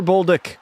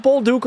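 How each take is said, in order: First: "Bolduc" ending in a short "duck" sound; alternative pronunciation. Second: "Bolduc" ending in a long "dook"; alternative pronunciation. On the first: Streamer offering chat the other option, "Bolduc" said BOWL-duck. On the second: Streamer asking chat about the name, "Bolduc" said bowl-DOOK. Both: Shown as a demonstration. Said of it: "Is it Bolduc or Bolduc?".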